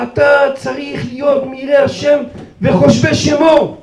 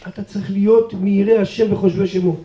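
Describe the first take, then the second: First: Mock shouted rebuke; retold scream. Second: Said in the usual way. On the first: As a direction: drive it home slowly with force. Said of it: "הוא צורח ואומר". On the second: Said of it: "הוא אומר לי".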